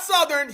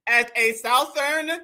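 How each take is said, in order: First: "Southern" said "SUH-thern", with the short u as in "sun"; correct pronunciation. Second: "Southern" said like "SOUTH-ern", rhyming with mouth, slow and mocking; mocking mispronunciation. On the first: Shown as a demonstration. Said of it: "not Southern". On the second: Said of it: "He said a Southern".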